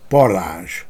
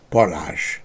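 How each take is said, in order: First: The final zs sound is fully voiced. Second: The final zs sound is partly devoiced. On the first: "köznyelvi parázs fordul elő, zömmel ilyen kiejtésben is" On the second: "a szóvégi zsé fél fokban zöngétlenebbül hangoztatva"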